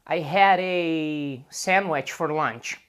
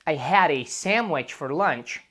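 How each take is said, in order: First: The article is drawn out, as if pausing to think. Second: The article is said with strong emphasis. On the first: The speaker is stopping to think. "quando as pessoas param para pensar, elas podem talvez falar a" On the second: The speaker wants to stress the point. "para enfatizar mais"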